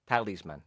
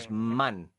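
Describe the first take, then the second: First: The stress is on the first syllable. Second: The stress is on the last syllable. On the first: This is the English way of saying it. "In English, it's the opposite. It's the first syllable" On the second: This is the Spanish way of saying it. "you have the tilde, the accent, over the A. ... Talisman, you say"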